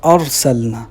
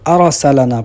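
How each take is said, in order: First: The r and l carry no vowels. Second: The r and l carry added vowels. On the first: The speaker calls it right. "जबकि इधर है" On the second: The speaker calls it wrong. "साकिन की बजाय अक्सर मुतहर्रिक पढ़ देते हैं"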